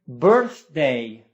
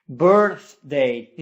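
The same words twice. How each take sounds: The two takes are said the same way.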